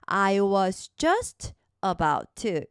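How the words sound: A short pause breaks up the phrase.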